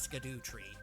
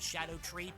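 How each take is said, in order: First: The first part sounds like 'skidoo'. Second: The first part sounds like 'shadow'. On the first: "look at that word. That's Skidoo Tree" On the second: "I know the proper pronunciation is Shadow Tree"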